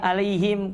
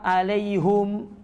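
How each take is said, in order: First: The final syllable has an 'i' vowel. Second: The final syllable has a 'u' vowel. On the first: "Kapan itu dibaca harusnya alaihim" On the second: "kenapa alaihum?"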